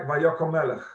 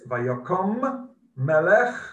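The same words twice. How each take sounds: First: The words are said quickly and run together. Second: The words are said carefully and kept apart. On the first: The speaker calls it wrong. "If you say that too quickly, it sounds like" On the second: The speaker calls it right. "It's Vayokom Melech Chodosh"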